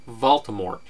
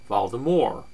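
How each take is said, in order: First: The final t is clearly pronounced. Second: The final t is silent. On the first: "pronounced Voldemort with a T" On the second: "pronounced Voldemort with a soft R"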